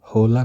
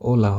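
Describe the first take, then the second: First: The word begins with an audible h sound. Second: The word begins directly with a vowel. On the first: The speaker calls it wrong. "হোলা না হয়ে" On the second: The speaker calls it right. "ওলা হবে"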